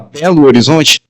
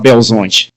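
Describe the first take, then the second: First: The name is said in full, every syllable. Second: The name is squeezed into a short, clipped form. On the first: "Algum mineiro fala Belo Horizonte?" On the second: "Ou fala Belzonte"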